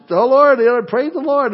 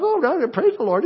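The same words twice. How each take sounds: First: High, cooing mock baby voice; baby talk. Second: Put-on high, lightly cooing baby voice; baby talk. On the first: Grandfather voicing his baby granddaughter, high baby talk. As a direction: babble it like a six-month-old. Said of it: "in baby talk". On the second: Grandfather imitating the baby's praise, high baby talk. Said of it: "just baby talk".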